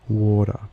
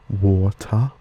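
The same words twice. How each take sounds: First: The middle consonant is a soft D. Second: The middle consonant is a clear T. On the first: "these would sound more like" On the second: "Spoken in a British accent, these would sound the same"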